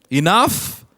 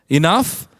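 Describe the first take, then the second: No difference in how they are said.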